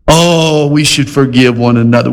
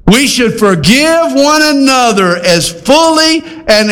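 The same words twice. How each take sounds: First: Easygoing mock agreement. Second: "fully" drawn out and pitched high; slow, high-pitched charge, leaning hard on "fully"; emphatic exhortation. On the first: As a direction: agree lightly, as if nothing were asked of you. Voices the unchallenged, easy reading. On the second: Acted. Preacher giving Paul's qualifier its weight, "fully" high and emphatic. States the demanding reading, emphatically.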